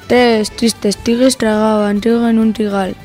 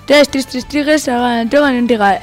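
First: It is spoken at a normal speed. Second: It is spoken at a fast speed. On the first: "Ahora a velocidad normal" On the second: "Ahora a velocidad rápida"

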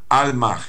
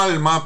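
First: The word ends with a slight breathy sound. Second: The word ends plainly on the vowel. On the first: "con una pequeña cadencia de J final" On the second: "como alma"

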